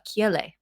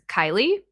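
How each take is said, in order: First: The name is said with a Hawaiian pronunciation. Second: The name is said with an English pronunciation. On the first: This is the original form of the name. "the Hawaiian enunciation is uh, Kiele" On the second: This is the version used for work. "the English enunci- pronunciation is Kylie"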